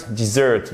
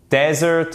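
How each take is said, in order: First: Dessert as dih-ZURT; weight on the ending of dessert; dessert with a short I, stressed late; stress on second syllable. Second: Desert as DEZ-ert, lifted high; desert with an open E, stressed up front; stress on first syllable. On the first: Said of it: "Seconde syllabe". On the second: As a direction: hit the opening DEZ of desert. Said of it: "l'accentuation change". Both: Shown as a demonstration.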